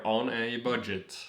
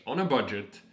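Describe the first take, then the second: First: "on a budget" slow and louder, each word weighted; emphatic clarification. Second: Said in the usual way. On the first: Real, not acted. Vlogger making clear the trip is "on a budget", slow and emphatic. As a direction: spell out "on a budget" slowly and firmly. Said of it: "wanna make that clear".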